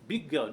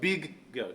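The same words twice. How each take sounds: First: The two g sounds merge into one. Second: Each g sound is released separately. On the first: The speaker calls it right. "merge them together and take them as one" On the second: The speaker calls it wrong.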